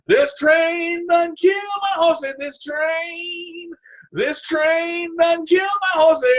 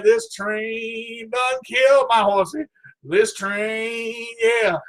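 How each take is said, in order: First: Sung, belt the dirge out, hammed up; sung, belted silly song. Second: Sung, slow made-up song about the horsey; silly sung lament. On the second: Pretend. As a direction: sing it slowly like a joke dirge. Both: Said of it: "I'm just singing".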